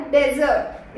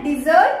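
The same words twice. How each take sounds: First: "डेजर्ट" opening on short "de"; DEZ-ert for "डेजर्ट"; contrasted pronunciation. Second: "डिजर्ट" with "di" at the start; di-ZERT for "डिजर्ट"; contrasted pronunciation. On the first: Trainer naming the sandy desert, contrasted pronunciation. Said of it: "इसका pronunciation क्या होता है". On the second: Trainer contrasting sweets with desert, correct pronunciation. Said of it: "इसका होता है डिजर्ट". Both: Shown as a demonstration.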